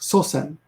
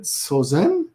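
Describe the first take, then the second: First: The middle consonant is a hissing S sound. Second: The middle consonant is a buzzing Z sound. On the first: The speaker calls it right. "No, no, it's sosen, S S" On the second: The speaker calls it wrong. "when the S changes to a Z. I sometimes think, is it sozen?"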